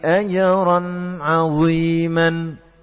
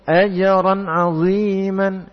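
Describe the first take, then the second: First: The phrase is recited calmly and unhurriedly. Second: The phrase is recited quickly and hurriedly. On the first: The speaker calls it right. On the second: The speaker calls it wrong.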